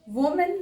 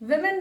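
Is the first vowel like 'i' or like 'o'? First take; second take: o; i. First: The first vowel sounds like o. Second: The first vowel sounds like i. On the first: The speaker calls it wrong. "वोमेन नहीं बोलिए" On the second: The speaker calls it right. "विमेन बोलिए"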